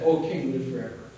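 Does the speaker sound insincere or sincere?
insincere. The greeting sounds hollow and insincere. The speaker does not mean the good wish. The speaker calls it wrong. "it's not what you say, it's how you say it. Because those scoundrels that wanted to get rid of Daniel, they said"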